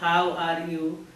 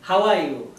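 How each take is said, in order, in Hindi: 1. इसे भारतीय अंग्रेज़ी उच्चारण में कहा गया है। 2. इसे अमेरिकी अंग्रेज़ी उच्चारण में कहा गया है। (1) "इन इंडियन इंग्लिश यू आर टेलिंग" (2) "इन अमेरिकन इंग्लिश इट इज टोल्ड दैट"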